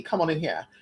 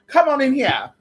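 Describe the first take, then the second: First: Said in the usual way. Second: Higher, louder calling out; a loud, higher welcoming call. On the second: Pretend. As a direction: call them in loudly.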